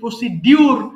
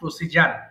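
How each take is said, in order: First: The middle is pronounced with a 'dyu' sound. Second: The middle is pronounced with a 'j' sound. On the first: The speaker calls it wrong. "আমরা যদি উচ্চারণ করি প্রসিডিউর" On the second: The speaker calls it right. "সঠিক উচ্চারণ হবে প্রসিজার"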